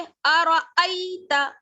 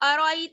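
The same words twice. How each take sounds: First: The glottal stop in the middle is clear. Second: The glottal stop in the middle is unclear. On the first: The speaker calls it right. "बल्कि अरअयत" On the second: The speaker calls it wrong. "अरअयत नहीं"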